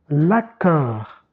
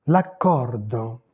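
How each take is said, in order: First: Said in the usual way. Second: "l'accordo" drawn out with final o; Italian pronunciation. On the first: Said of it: "quelques mots du français à l'italien". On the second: Shown as a demonstration. Teacher showing the Italian word from French, Italian pronunciation. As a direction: stretch "l'accordo", sounding d and o. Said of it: "j'ai oublié le O".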